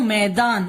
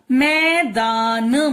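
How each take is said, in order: First: Said in the usual way. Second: मैदान stretched slowly as मै-दा-न; syllable-by-syllable. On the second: Shown as a demonstration. Teacher reading out the first word, syllable by syllable. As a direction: sound out मैदान part by part. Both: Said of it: "first word हमारा निकलेगा".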